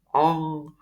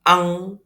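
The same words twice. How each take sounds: First: It is said with a pinched nose, sounding muffled. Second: It is said with an open nose, sounding clear. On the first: "coba saya tutup hidung ya. ... tidak terdengar begitu terang juga" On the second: "Bacanya ang, seperti bahasa Indonesia juga"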